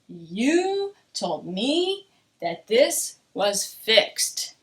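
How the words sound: It sounds angry, with a stretched, stressed you. The speaker is upset that it is still not fixed. "I'm showing emotion, anger"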